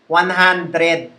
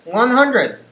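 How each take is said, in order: First: It is said slowly in a Taglish accent. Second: It is said shorter and compressed, English accent. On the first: The speaker calls it wrong. "The Taglish version sounds like one hundred" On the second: The speaker calls it right. "the English version is one hundred. It's it's sm- shorter, it's more compressed"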